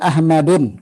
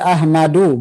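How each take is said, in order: First: The word ends with an added n sound. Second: The word ends in a plain u vowel. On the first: The speaker calls it wrong. "bukan Ahmadun" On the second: The speaker calls it right. "Ahmadu, bukan Ahmadun"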